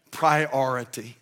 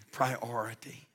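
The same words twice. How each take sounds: First: Priority said slowly, each syllable weighed; Priority stretched out for weight; drawn-out emphasis. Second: Priority repeated much softer; priority murmured as an afterthought; soft echo. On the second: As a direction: let priority fall away quietly. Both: Shown as a demonstration.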